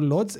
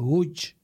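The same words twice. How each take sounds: First: The name is read the way it is spelled. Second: The name is said the native Polish way. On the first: The speaker calls it wrong. "a térképen ránézünk, akkor Lodz" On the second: The speaker calls it right. "ezt viszont úgy kell mondani, hogy Lodz"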